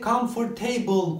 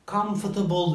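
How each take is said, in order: First: Every syllable keeps a full vowel. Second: The unstressed syllables are reduced to schwa. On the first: The speaker calls it wrong. "Normalde comfortable olması gereken" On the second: The speaker calls it right. "araya şıva girerek vurguyu kaybettirir"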